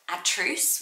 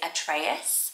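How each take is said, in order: First: The name is said with two syllables. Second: The name is said with three syllables. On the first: This is how it is said in Greek. "in Greek, it's more like ... atrus with two syllables" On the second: This is how it is said in the US. "in the U S they were more saying it is Atreus"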